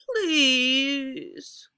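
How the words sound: The pitch falls on the word.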